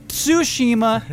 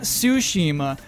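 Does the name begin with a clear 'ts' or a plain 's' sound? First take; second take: ts; s. First: The name begins with a clearly sounded 'ts'. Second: The name begins with a plain 's' sound. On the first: This is the correction someone insists on. "If you correct me and say it's Tsushima" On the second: This is the everyday way it gets said. "not Tsushima"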